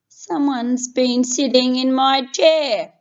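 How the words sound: It is a deep, loud, roaring voice.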